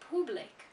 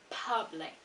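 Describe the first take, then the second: First: The first vowel is an 'oo' sound. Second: The first vowel is an 'uh' sound. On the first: The speaker calls it wrong. "they pronounce the letter U as a U" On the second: The speaker calls it right. "this letter U has an uh sound"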